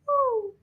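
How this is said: A high-pitched baby owl hoot.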